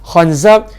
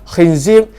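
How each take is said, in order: First: The vowels are a, then a. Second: The vowels are i, then i. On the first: "kha dengan zai baris atas" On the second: "kha dengan zai baris bawah"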